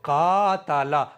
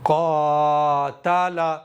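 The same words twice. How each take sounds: First: The first letter is said thin and light. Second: The first letter is said thick and heavy. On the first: The speaker calls it wrong. "इस तरह से पढ़ना भी गलत है" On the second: The speaker calls it right. "यह है इसकी सही अदायगी"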